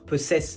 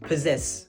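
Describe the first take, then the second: First: The first double S is a hissing S sound. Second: The first double S is a buzzing Z sound. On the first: The speaker calls it wrong. "on aurait envie de dire possess parce qu'il y a deux S" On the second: The speaker calls it right. "C'est bien le son Z qu'on entend et pas les deux S"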